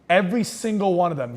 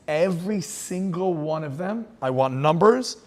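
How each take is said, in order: First: Said in the usual way. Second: Slow, menacing decree from a tyrant; a hint of a cruel commander; cold Nazi order. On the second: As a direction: spell out the order slowly and coldly. Hitler's order voiced in story.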